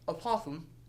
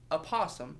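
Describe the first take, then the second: First: Said with tongue held out, sounding lisped. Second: Said normally, with clear consonants.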